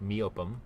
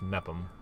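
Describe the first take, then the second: First: The name is said with three syllables. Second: The name is said with two syllables. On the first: The speaker calls it wrong. "my previous video where I pronounced it Meopum" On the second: The speaker calls it right. "Apparently it's just Mepum"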